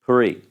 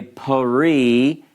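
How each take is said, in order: First: Pari with the first vowel cut very short, almost pri; hurried shva. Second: Pari with a full, slow first vowel, pa-ri; wrong full vowel. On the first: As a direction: rush the pa of Pari into the r. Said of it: "it's very short, it's quick". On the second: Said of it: "You don't say pari". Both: Shown as a demonstration.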